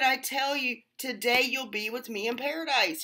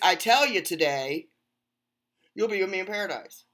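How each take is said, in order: First: The pause comes before the word today. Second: The pause comes after the word today.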